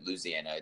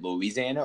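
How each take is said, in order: First: "Louisiana" squeezed, opening on "looz"; shortened pronunciation of Louisiana. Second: "Louisiana" with the second syllable sounded; full pronunciation of Louisiana. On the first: Host offering guests the other option, shortened Louisiana. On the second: Host asking guests which way they say it, full Louisiana. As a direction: say "Louisiana" in full, loo-EE-zee-ANA. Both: Shown as a demonstration. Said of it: "Is it Louisiana or is it Louisiana".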